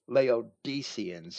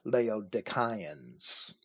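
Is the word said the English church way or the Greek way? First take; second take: English; Greek. First: It is said the usual English church way. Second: It is said the original Greek way. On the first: The speaker calls it wrong. "it might be pronounced in the modern churches" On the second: The speaker calls it right. "The Greek pronunciation is actually"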